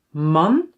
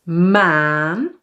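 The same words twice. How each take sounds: First: "man" with a short Dutch a; "man" said with a quick "ah"; short vowel. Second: "maan" with a long aa; "maan" held long, rising at the end; long vowel. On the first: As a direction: keep the a in "man" brief. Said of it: "one with a short sound". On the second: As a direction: draw out the aa in "maan". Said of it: "one with a longer". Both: Shown as a demonstration.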